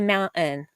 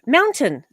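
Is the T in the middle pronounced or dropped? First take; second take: dropped; pronounced. First: The T in the middle is dropped. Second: The T in the middle is clearly pronounced. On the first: The speaker calls it wrong. "people in Utah have a tendency to not pronounce their T's" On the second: The speaker calls it right. "there's a T in there"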